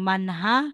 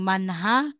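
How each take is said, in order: First: An h sound is heard after the n. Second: The same.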